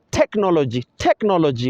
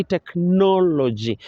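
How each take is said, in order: First: TECHnology, stressed on the first syllable; technology with the beat on tech; misplaced stress on technology. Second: TechNOLogy, slow, stressed on the second syllable; technology with a drawn-out nol; correct stress on technology. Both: Shown as a demonstration. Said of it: "but we say technology".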